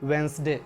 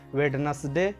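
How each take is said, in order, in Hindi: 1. बीच वाली d silent रहती है। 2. बीच वाली d बोली जाती है। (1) "सही प्रोनाउंसिएशन होता है" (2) "ये प्रोनाउंसिएशन सही नहीं है"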